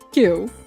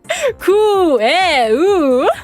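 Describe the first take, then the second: First: The word is said as one short syllable. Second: Every letter is sounded as separate syllables. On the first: The speaker calls it right. "I have since learned, obviously, that it's Q" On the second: The speaker calls it wrong. "I pronounced Q as Kueu. Because I pronounced, like, each syllable"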